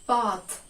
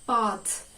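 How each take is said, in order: First: It is said with a British accent. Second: It is said with a British accent.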